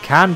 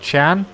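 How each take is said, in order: First: The name begins with a hard 'k' sound. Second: The name begins with a 'ch' sound. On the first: The speaker calls it wrong. "I've been calling him Can" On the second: The speaker calls it right. "apparently it's pronounced Chan"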